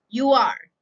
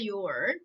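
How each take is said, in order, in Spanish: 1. Ambas palabras se dicen completas y por separado. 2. Las dos palabras se unen en una sola sílaba.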